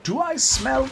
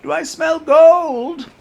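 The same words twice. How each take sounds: First: High, half-formed Scrooge attempt. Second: Put-on high, slow, loud miserly old duck; Scrooge voice. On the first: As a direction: start the old miser line, then break off. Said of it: "Scrooge in the distance, like". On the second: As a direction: savor the gold like a greedy miser. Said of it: "gonna have a hard time getting into that voice again".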